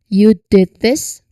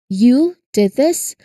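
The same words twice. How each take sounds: First: The stress falls on the word did. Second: The stress falls on the word you. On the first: It is surprising that the action was done at all. "it moves to the stress moves to did" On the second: Of all people, this person is the one who did it. "So the stress lands on the word you"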